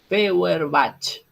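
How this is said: The name is pronounced with Spanish sounds. "en castellano diríamos Feuerbach"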